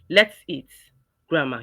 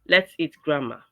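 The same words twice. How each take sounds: First: There is a pause after 'eat'. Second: It is said without a pause.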